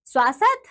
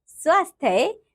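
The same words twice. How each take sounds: First: "स्वास्थ्य" as "svaa-sath"; wrong pronunciation. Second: Said in the usual way. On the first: Shown as a demonstration. Teacher showing pupils the error, "स्वास्थ्य" mispronounced as "svaasath". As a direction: drop the final y of "स्वास्थ्य", "svaasath". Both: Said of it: "अन्य अशुद्धियां कुछ".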